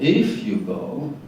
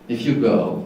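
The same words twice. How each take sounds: First: The word if is stressed. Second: The word if is unstressed. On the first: This follows the song's rhythm. The speaker calls it wrong. "not if you go, but here it's stressed" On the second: This is the ordinary speech pattern. The speaker calls it right. "in normal speech is not really stressed"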